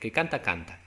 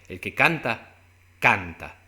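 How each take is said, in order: First: The second canta is said plainly. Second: The second canta is said with emphasis.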